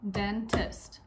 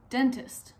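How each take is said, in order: First: "dentist" as two distinct beats, den, tist; short break inside "dentist" between den and tist; split into syllables. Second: Said in the usual way. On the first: Shown as a demonstration. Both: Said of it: "Break the word dentist into its syllables".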